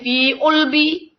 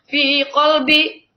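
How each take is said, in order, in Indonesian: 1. Q berubah menjadi hentian glotal pada kata kedua. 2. Ada konsonan q yang jelas pada kata kedua. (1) "kalau Mesir bisa jadi fi ulbi"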